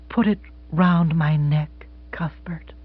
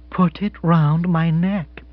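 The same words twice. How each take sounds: First: Soft and slow, name breathed unvoiced; tender whispered request. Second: Slow, steady repetition; calm repeated request; repeated gently. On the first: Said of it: "she whispered". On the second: Acted. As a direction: say it again, calmly insistent. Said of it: "repeated Missus Spotsworth".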